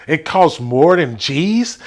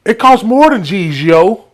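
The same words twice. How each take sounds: First: Hesitant false start. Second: Higher, with the yo tacked on; the teen's line, yo included; clueless New York kid. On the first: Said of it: "It, no, hold up". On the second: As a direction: add the yo with confidence. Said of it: "I had to throw in the yo". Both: Retold or imitated.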